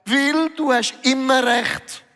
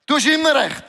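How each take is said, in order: First: Slow, slightly raised Jesus reply; lightly voiced Jesus, gently teasing; a hint of Jesus answering him; voicing Jesus. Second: Louder and higher, hitting immer; Jesus's words repeated for emphasis; emphatic repeat. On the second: Retold or imitated. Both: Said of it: "Und Jesus sagt".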